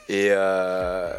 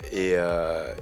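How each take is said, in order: Both takes have the same delivery.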